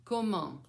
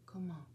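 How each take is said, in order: First: Said in the usual way. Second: COMMENT softly, almost whispered; soft echo prompt. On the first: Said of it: "First, I'm gonna say it". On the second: Shown as a demonstration. Grandmother feeding the child's turn, COMMENT said softly. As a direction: murmur COMMENT as the learner's echo. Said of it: "then you're gonna say it".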